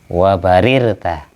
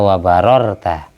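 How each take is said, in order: First: The vowel after the first r is 'i'. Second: The vowel after the first r is 'a'. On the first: "Yang benar bikasrir ro" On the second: "Bisa yang kayak Yazid tadi dibaca fathah"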